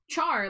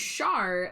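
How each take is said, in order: First: It starts with a ch sound, like char. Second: It starts with a sh sound, like shar. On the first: "Char like Charmander" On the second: "Char like Charlotte"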